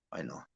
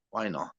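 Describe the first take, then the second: First: Much softer, lower repeat to himself; quiet echo. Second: Said in the usual way. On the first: Real, not acted. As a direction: let it fade out as an afterthought.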